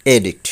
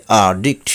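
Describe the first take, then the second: First: অ্যাডিক্ট said "e-dikt"; common mispronunciation. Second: অ্যাডিক্ট said "a-dikt"; corrected pronunciation. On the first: Teacher showing the common way, অ্যাডিক্ট as "e-dikt". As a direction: say অ্যাডিক্ট with an "e" start. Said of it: "আমরা বলে থাকি". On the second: Teacher correcting learners, অ্যাডিক্ট as "a-dikt". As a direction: say অ্যাডিক্ট with an "ah" start. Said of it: "সঠিক উচ্চারণ হবে". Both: Shown as a demonstration.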